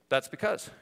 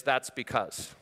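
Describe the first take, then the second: First: "That's because." with "because" rising at the end; questioning excuse. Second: "That's because." with a falling end, no lift; flat quote of an excuse. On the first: Pastor repeats the excuser's phrase to the congregation, rising. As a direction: lift "because" upward like a half-question. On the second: Pastor voices a typical excuser's stock line, falling. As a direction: state "That's because." flatly, dropping at the end. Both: Shown as a demonstration. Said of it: "will come the phrase".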